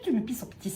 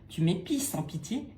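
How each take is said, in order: First: It is said quickly, in a rush. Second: It is said slowly and gently. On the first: "recommence, tout vite" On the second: "maintenant doucement"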